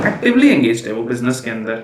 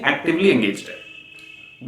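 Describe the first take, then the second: First: Said in the usual way. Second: "actively" stressed, phrase said slowly and firmly; slow down and lean on "actively" to contrast passive; slow firm repeat. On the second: Shown as a demonstration. ("Actively" पर ज़ोर देकर धीरे से) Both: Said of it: "passively engaged नहीं है".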